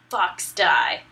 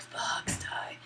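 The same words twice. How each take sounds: First: Said in the usual way. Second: Whispered last words; hushed, hammed-up death whisper; mock dying gasp. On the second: Acting out Liquid's dying words.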